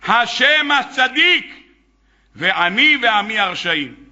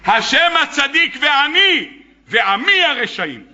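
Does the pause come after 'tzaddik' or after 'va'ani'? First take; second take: after tzaddik; after va'ani. First: The phrase breaks right after the word tzaddik. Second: The phrase breaks right after the word va'ani. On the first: Only God is righteous; the speaker and his people are wicked. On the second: God and the speaker are righteous; only his people are wicked.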